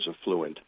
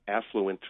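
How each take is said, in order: First: The stress is on the second syllable. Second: The stress is on the first syllable. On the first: The speaker calls it wrong. "that's probably what we would describe as a spelling pronunciation" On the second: The speaker calls it right. "with the stress on the first syllable"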